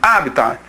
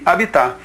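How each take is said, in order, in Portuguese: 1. A tonicidade está na primeira sílaba. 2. A tonicidade está na última sílaba. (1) "a primeira pronúncia dela é essa daqui, o resgate do latim" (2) "a forma vulgar, a forma rotineira que nós usamos"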